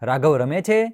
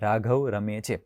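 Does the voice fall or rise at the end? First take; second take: rise; fall. First: The pitch rises at the end. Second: The pitch falls at the end. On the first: It is a question. "તો આનો સૂર નીચેથી ઊંચો જાય" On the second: It is a statement. "તો આનો સૂર નીચે આવે"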